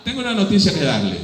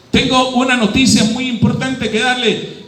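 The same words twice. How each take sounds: First: Said in the usual way. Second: Muy importante said with weight; more emphatic repeat. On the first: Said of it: "first take". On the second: Acted. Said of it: "repeats the news line".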